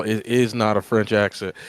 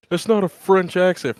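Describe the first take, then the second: First: Said in the usual way. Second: Raised, louder mock-complaint; mocking the haters. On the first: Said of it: "First of all". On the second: Co-host parroting critics of the French accent, mocking. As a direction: imitate a griping critic, high and loud. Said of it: "armpit women out here that are saying".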